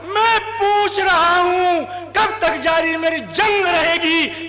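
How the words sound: It is said in an angry tone.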